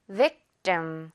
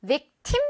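First: Victim lower, final syllable a tense 뜸; ending like 뜸. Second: Victim higher and rising, with a clear aspirated 팀; mistaken airy T. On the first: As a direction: drop victim onto a short-vowelled, unaspirated 뜸. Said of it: "거의 뜸". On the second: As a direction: push the tim of victim up as a questioned mistake. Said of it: "이렇게 발음하지 않아요". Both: Shown as a demonstration.

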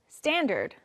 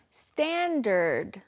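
First: Said in the usual way. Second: Very slow, drawn-out "standard"; pronunciation model. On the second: Shown as a demonstration. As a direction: stretch out both syllables of "standard". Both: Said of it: "Let's practice our pronunciation".

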